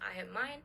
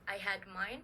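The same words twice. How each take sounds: First: The final consonant of had blends into the next. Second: The final consonant of had stays distinct.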